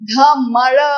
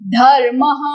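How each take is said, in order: First: The r sound comes after the m. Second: The r sound comes before the m. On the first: The speaker calls it wrong. "Not धमर" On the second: The speaker calls it right. "धर्मः and not धमर"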